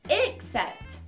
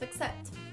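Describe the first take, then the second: First: The first vowel is a clear 'e' sound. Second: The first vowel is a weak schwa sound. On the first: "the beginnings are different. A, e" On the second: "They can both have the beginning as a schwa sound"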